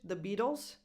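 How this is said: The T in Beatles sounds like a soft D. "American English, where the T sounds more like a D"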